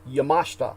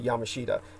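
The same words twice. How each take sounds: First: The name is said with a Japanese pronunciation. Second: The name is said with an American pronunciation. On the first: "the Japanese pronunciation is more Yamashita" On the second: "every American will say Yamashita"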